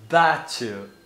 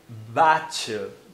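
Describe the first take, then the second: First: The t turns into a ch sound. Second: The t turns into a ch sound.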